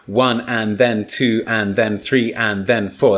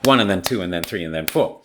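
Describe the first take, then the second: First: The phrase is stretched out over about ten seconds. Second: The phrase is squeezed into about four seconds. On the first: "That's ten seconds" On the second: "it's still four seconds"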